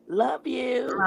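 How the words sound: It is said in a changed, put-on voice.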